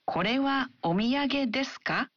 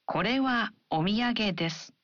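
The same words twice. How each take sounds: First: "Kore wa omiyage desu ka" rising at the end; rising question. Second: "Kore wa omiyage desu" ending flat and falling; falling statement. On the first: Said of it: "add a rising intonation". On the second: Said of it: "an affirmative sentence and a question". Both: Shown as a demonstration.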